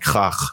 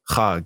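First: The name ends with a throaty H-like sound. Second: The name ends with a hard G sound. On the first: The speaker calls it right. "it's like Hach" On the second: The speaker calls it wrong. "It's not Hag"

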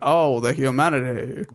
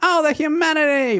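First: The voice is deep and slower. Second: The voice is high-pitched and sped up. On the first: This is how the speaker actually sounded. "this was actually much deeper... But really he's like" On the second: This is how the faulty recording made it sound. "it sounded higher pitch because there was a playback error... So it makes him sound like"

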